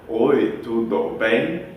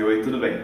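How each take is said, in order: First: Slow syllable-by-syllable gringo Portuguese, broken apart; choppy gringo Portuguese. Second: Said in the usual way. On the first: Retold or imitated. Teacher mocking a gringo, slow choppy Portuguese. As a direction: sound like a gringo building it piece by piece. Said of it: "Ele aprendeu sílaba por sílaba e não a frase". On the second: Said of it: "e não a frase".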